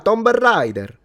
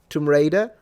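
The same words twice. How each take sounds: First: The B at the end of tomb is pronounced. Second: The B at the end of tomb is silent. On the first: The speaker calls it wrong. "Every Italian says Tomb Raider" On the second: The speaker calls it right. "you will say"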